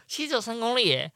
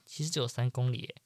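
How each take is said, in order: First: Higher, laughing at 只; laughing disbelief. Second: Said in the usual way. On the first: Shown as a demonstration. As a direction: repeat it, laughing at yourself. (笑着说“其实只有三公里耶”)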